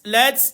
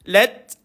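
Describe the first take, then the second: First: The final t ends with a strong hiss. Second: The final t ends with a slight breath. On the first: The speaker calls it wrong. "lats tak boleh" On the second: The speaker calls it right. "tu bunyi dia"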